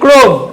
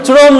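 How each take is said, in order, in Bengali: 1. এটি 'k' ধ্বনি দিয়ে শুরু, একটি শব্দাংশ। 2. এটি 'ch' ধ্বনি দিয়ে শুরু, দুটি শব্দাংশ। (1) "এই না এটা ক্রোম" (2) "জিনিসটা চরম না"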